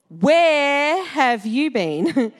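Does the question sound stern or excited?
stern. It sounds stern, like a worried parent.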